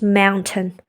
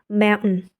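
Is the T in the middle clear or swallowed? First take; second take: clear; swallowed. First: The T sound in the middle is clearly pronounced. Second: The T sound in the middle is swallowed. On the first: "In British accent, it's just mountain" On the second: "you swallow that T sound. It became mountain"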